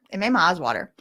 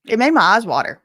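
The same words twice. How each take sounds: First: Said in the usual way. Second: Emphatic. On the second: Real, not acted. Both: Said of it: "repeated quieter".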